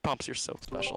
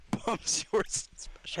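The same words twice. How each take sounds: First: Breathy held-back giggle; trying not to crack up; stifled giggles. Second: Barely holding in laughter; stifled giggles. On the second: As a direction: giggle bursting through, higher. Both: Real, not acted. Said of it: "We do not need to hear your breathing".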